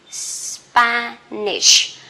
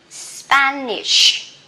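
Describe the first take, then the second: No difference in how they are said.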